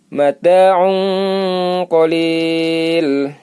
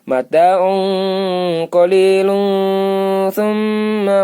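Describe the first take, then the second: First: The phrase stops cleanly after qalil. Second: Qalilun links into thumma with a nasal hum. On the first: "Kalau berhenti" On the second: "berarti dengung kalau sambung"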